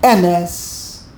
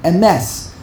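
First: Emes with a heavy E and a weak ending; wrong first-syllable stress. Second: Emes with a brief E and weight on MES; quick first vowel. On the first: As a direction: lean on the E of Emes. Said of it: "the wrong way". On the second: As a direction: skim the E of Emes, land on MES. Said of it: "say the aleph very quickly". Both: Shown as a demonstration.

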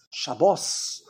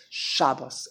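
First: "Shabbos" drawn out to a stressed last syllable; Hebrew pronunciation. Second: "Shabbos" stressed on the first syllable; Yiddish pronunciation. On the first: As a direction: say "Shabbos" slowly as sha-BOS. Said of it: "Because in Hebrew". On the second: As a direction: say "Shabbos" as SHA-bbus. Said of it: "there's no such thing as". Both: Shown as a demonstration.

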